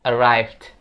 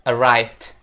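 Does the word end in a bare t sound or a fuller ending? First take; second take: bare t; bare t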